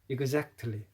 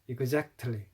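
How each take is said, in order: No difference in how they are said.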